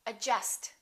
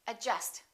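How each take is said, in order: No difference in how they are said.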